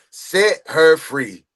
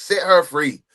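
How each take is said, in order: First: "Set" stressed, each word drawn out slowly; slow emphatic. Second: Said in the usual way. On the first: Real, not acted. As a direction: stretch "Set her free" out slowly, leaning on "Set". Chanting support for the woman.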